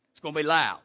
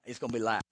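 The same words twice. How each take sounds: First: "loud" landed louder with a falling tune; louder, firm "loud"; louder repeat. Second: Said in the usual way. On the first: Shown as a demonstration. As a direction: hit "loud" harder the second time.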